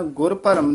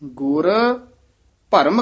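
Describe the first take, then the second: First: The two words run together without a pause. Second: There is a short pause after the first word. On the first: The Guru's own doubt. The speaker calls it wrong. "ਗੁਰ ਭਰਮ ਨੀ ਕਹਿ ਦੇਣਾ" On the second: The Guru cut away the doubt. The speaker calls it right. "ਗੁਰ ਦੇ ਗੁਰ ਤੋਂ ਬਾਅਦ ਵੀ ਥੋੜਾ ਜਿਹਾ ਠਹਿਰਾ ਦੇਣਾ"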